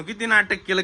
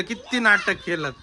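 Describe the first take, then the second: First: Said in the usual way. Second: "नाटक" drawn out slowly with weight; slow emphasis. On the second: Real, not acted. Scolding the kids for faking, slow stressed "नाटक". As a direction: spell out "किती नाटक केलं" slowly, leaning on "नाटक".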